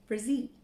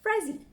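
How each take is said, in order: First: "Frazee" with the stress moved to the second syllable; Frazee stressed at end. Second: "Frazee" with the first syllable stressed and high, falling away; Frazee stressed up front. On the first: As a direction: say "Frazee" as fruh-ZEE, lifting at the end. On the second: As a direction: say "Frazee" as FRAY-zee, pitch dropping at the end. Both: Shown as a demonstration. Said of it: "Sorry if I didn't say that right".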